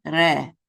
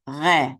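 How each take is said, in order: First: "Re" with the R made at the front of the mouth. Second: "Re" with the R back in the throat. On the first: Teacher shows learners the first way, front R. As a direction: say "Re" with a tongue R, not in the throat. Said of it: "back in the throat". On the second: Teacher shows learners the other way, guttural R. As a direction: say "Re" with a French-style guttural R. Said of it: "you know, back in the throat". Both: Shown as a demonstration.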